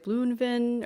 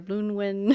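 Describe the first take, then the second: First: The second part begins with a V sound. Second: The second part begins with a W sound.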